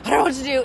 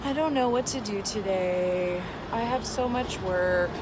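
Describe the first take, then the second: First: Quick, punchy and higher; fast, right way. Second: Slow, drawn-out worried self-talk; slow, wrong way. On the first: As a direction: fire it off fast without thinking. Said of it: "going really fast". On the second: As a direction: drag it out like you're unsure. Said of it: "that's not gonna be as effective as going really fast". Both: Shown as a demonstration.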